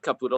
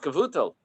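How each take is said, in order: First: The middle consonant is a p sound. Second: The middle consonant is a v sound. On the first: The speaker calls it wrong. "not Kaputo" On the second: The speaker calls it right. "It's like with a with a vase instead of a pay"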